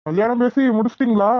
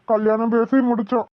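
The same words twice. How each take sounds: First: A light mocking repeat with பேசி leaned on; sarcastic echo. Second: Said in the usual way. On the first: Officer echoing the farmer's wedding news, mildly sarcastic. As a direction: echo his words back with a hint of a sneer. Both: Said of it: "இவன் கேக்குற பார்த்தா நக்கலா இருக்கு".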